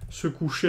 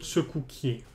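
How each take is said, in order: First: The middle consonant is a 'sh' sound. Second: The middle consonant is 'k' followed by 'y'. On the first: This is the standard form. "normalement, se coucher avec le son ch" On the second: This is the dialect form. "qui devient que. Et du coup, il y a le i qui se rajoute"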